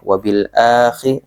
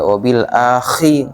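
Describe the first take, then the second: First: The kh sound is light and moderate. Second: The kh sound is harsh and overdone. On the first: The speaker calls it right. "biasa biasa ya" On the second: The speaker calls it wrong. "enggak enggak enggak enggak enggak berlebihan khi gitu enggak"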